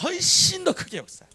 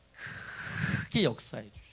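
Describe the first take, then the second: First: 훨씬 stretched high and loud; repeat-after-me emphasis. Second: 크게 stretched very long and low; emphatic drawn-out stress. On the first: Shown as a demonstration. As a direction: shout 훨씬 더 크게 high for all to echo. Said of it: "한번 따라서". (훨씬을 높고 크게 강조해 선창) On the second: Real, not acted. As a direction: draw out 크게 with a long breathy onset. Preacher stretches the key word. (크게를 낮고 아주 길게 끌기)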